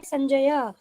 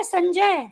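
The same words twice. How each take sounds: First: संजय with the final a sounded, sanjaya; Sanskrit pronunciation. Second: संजय clipped to sanjay, final a dropped; Hindi pronunciation. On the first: Teacher gives students the Sanskrit form, संजय as sanjaya. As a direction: pronounce संजय fully as sanjaya. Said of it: "संस्कृत में है संजय". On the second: Teacher contrasts Hindi reading for students, संजय clipped as sanjay. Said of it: "हिंदी में ये है संजय". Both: Shown as a demonstration.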